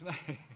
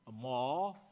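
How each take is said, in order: First: The vowel sounds like 'ay'. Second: The vowel sounds like 'aw'. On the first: The speaker calls it right. "It's May" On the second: The speaker calls it wrong. "you don't pronounce the month of May, a maw"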